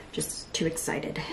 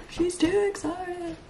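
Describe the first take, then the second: First: Soft, slow, nearly voiceless remark; hushed aside. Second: High, slow, soft singsong; high self-mockery. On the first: Real, not acted. Vlogger judging her own outburst, hushed. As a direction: drop to a slow murmur. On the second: Vlogger mocking herself in third person, high singsong. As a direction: tease in a small high voice, drawing it out.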